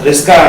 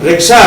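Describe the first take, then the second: First: The word is said with the sounds swapped to 'sk'. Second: The word is said with the plain 'ksh' order.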